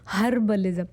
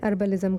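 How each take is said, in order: First: The word starts with a clear h sound. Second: The word starts with a vowel, no h. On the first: This is the form listeners there understood. "अरे नहीं यार, हर्बलिज़म" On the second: Listeners did not understand the word. "मैं अर्बलिज़म कर रही हूँ"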